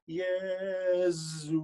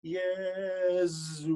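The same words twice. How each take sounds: First: The middle S is a strong, full Z. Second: The middle S is a strong, full Z.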